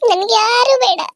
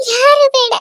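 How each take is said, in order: First: Pained, stress on ಯಾರು; ಯಾರು pressed hard, near tears; upset woman rejecting help; tearful refusal. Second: Higher, louder ಯಾರು ಬೇಡ cried out; ಯಾರು flung out in a tearful shout; louder outburst. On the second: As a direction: repeat it, breaking louder. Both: Acted. Refuses everyone, repeated.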